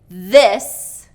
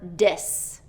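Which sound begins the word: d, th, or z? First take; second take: th; d. First: The word begins with a voiced th sound. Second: The word begins with a d sound. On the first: The speaker calls it right. "the voiced T H sound" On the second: The speaker calls it wrong. "or D"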